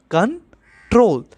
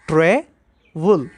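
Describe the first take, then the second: First: control with the weight on troll; stress on the last syllable. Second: Slow syllable demo. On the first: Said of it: "last syllable है troll, इसमें stress आ रहा है". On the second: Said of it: "ये एक ऐसा verb है जिसमें दो सिलेबल्स हैं". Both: Shown as a demonstration.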